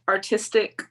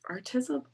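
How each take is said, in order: First: Artistic said firm and a bit louder as the fix; correcting to Artistic with a falling tune; firm correction Artistic; self-correction. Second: Artism? asked back with a rising, doubtful tune; checking the made-up word Artism, rising; unsure rising Artism?; questioning her own word. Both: Shown as a demonstration.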